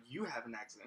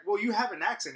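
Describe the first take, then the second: First: Imitating a manager's low, quiet comeback; retold retort, dropped low and soft on YOU; unfazed manager. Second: Imitating a pushy customer, higher pitched; retold accusation in a raised, higher voice; accusing customer. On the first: Manager turning the remark back on the customer, low-key. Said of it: "He was like". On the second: Customer challenging the manager about his accent, pointed and higher. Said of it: "And she was like".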